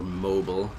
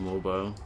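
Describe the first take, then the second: First: The word is said with an American accent. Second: The word is said with a British accent.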